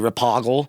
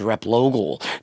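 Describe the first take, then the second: First: The name is said as Rapoggle. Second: The name is said as Replogle. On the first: The speaker calls it wrong. "call me Rapoggle" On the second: The speaker calls it right. "my last name is Replogle"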